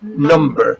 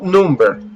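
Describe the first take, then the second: First: The first vowel is a relaxed 'uh' sound. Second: The first vowel is a tense, non-relaxed sound. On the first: The speaker calls it right. "It's a relaxed sound" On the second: The speaker calls it wrong. "not number"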